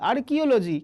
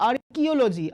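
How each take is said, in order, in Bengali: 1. দ্বিতীয় অক্ষরটি 'kee' এর মতো শোনায়। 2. দ্বিতীয় অক্ষরটি 'kee' এর মতো শোনায়।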